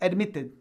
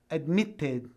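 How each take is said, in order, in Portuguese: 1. É pronunciado mais rápido, com um t mais suave. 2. É pronunciado com um t nítido e bem marcado. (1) "o americano, ... Vai falar mais rápido" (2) "com um T bem marcado, como se fosse o inglês mais britânico"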